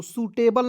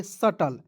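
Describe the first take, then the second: First: सूटेबल with long oo and "tebal" ending; wrong pronunciation. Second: सटल with short uh and no b; सटल, the B silent; correct pronunciation. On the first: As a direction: read it out as सूटेबल, like "suitable". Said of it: "नहीं पढ़िएगा". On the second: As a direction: say सटल as two short syllables, sa-tal. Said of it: "इसे पढ़ेंगे". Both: Shown as a demonstration.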